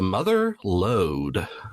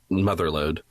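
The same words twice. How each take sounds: First: It is said as two separate words. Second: It is said as one joined word. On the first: "like it's two separate words" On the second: "not just Mother Lode"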